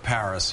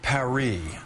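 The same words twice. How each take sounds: First: Paris is given its local American pronunciation. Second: Paris is given its foreign, original pronunciation. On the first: This is how people here say it. "instead of Paris here" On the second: This is how the name's owners say it. "it may be a little bit like saying Paris"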